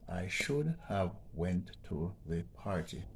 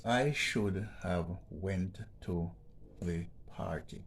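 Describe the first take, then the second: First: Said in the usual way. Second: Slow, careful reading of "I should have went to the party"; slow read-out of the sentence. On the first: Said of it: "what makes this sentence wrong". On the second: Shown as a demonstration. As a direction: read the example sentence slowly. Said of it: "It reads like this".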